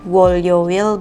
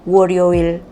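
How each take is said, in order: First: The consonant before 'yo' sounds like an L. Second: The consonant before 'yo' sounds like an R. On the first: The speaker calls it wrong. "So it's not Wolyoil" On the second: The speaker calls it right. "but it's Woryoil"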